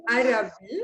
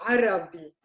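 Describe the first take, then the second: First: "Arabi" with a plain English A, no throat sound; wrong "Arabi" without the Ain; Western Arabi. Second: "Arabi" starting with a squeezed throat Ain; right "Arabi" from the throat; Arabic Ain in Arabi. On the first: Teacher shows the wrong way, plain A. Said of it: "is not". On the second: Teacher shows the right Arabic Ain. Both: Shown as a demonstration.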